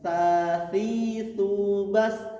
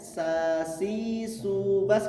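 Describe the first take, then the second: First: The s sounds close to a t. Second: The s is clear, tongue held back. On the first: The speaker calls it wrong. "hampir seperti huruf ta, bukan sin" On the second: The speaker calls it right. "mundurkan lidahnya"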